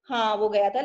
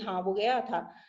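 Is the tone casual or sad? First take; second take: casual; sad. First: It is said in a casual, matter-of-fact tone. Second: It is said sadly, with held breath.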